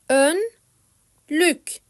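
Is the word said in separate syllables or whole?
syllables. It is broken into separate syllables. "Önce heceleyerek"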